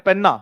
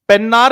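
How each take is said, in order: First: The name ends on a vowel, no r. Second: The name ends with an r sound. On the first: The speaker calls it right. "र नहीं चाहिए" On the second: The speaker calls it wrong. "पेन्नार नहीं है"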